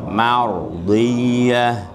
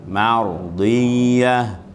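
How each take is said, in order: No difference in how they are said.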